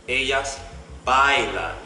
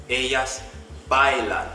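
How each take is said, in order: Both takes have the same delivery.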